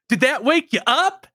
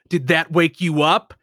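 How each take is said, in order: First: The line sounds bright and cheery. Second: The line sounds dark and threatening. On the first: The tone does not fit the violent situation. The speaker calls it wrong. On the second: The speaker is threatening the person held. The speaker calls it right.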